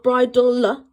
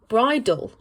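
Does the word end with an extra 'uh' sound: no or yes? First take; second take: yes; no. First: It ends with an extra 'uh' after L. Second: It ends cleanly on the L sound. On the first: The speaker calls it wrong. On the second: The speaker calls it right. "No extra uh on the end"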